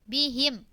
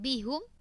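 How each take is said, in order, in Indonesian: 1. Suku kata terakhir memakai vokal 'i'. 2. Suku kata terakhir memakai vokal 'u'. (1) "Ketika wakaf bihim, dikembalikan lagi haknya di kasroh" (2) "bukan bihum"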